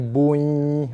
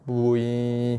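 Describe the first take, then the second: First: The merged w sound is pressed and doubled. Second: The merged w sound is light and not doubled. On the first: The speaker calls it wrong. "dah jadi bui" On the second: The speaker calls it right. "lembutkan dia je"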